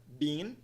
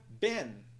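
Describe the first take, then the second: First: "been" with long EE, like "bean"; "been" as one syllable, long vowel. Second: "been" with short E, like "Ben"; "been" as one syllable, short vowel; open E vowel. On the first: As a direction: say "been" to rhyme with "seen". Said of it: "o som de vogal é linha". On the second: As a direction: say "been" to rhyme with "ten". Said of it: "o som de vogal I curva". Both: Shown as a demonstration.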